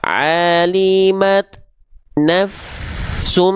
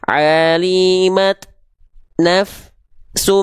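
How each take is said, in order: First: The sound flows from 'naf' into 'sum' without stopping. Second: The sound stops briefly after 'naf' before 'sum'. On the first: The speaker calls it right. "antara af dengan su nggak ada jeda" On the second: The speaker calls it wrong. "afnya nggak boleh gitu"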